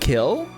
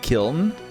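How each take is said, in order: First: The word ends without an n sound. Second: The word ends with an audible n sound. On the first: "so it's just kill?" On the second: "You don't say kiln?"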